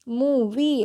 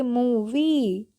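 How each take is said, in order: First: Said in the usual way. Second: movie stretched very slowly, the long ee held; teacher models movie slowly with a long ee; drawn-out demo. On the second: Shown as a demonstration. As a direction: spell out movie slowly for the class. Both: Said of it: "तो हम इसको क्या पढ़ेंगे".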